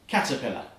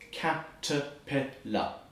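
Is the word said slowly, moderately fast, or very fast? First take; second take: very fast; slowly. First: The word is said as fast as possible. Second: The word is said very slowly.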